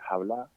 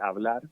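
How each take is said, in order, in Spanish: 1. La palabra empieza con un sonido de h aspirada. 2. La palabra empieza con una h muda. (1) "puede decir hablar" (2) "en vez de decir hablar"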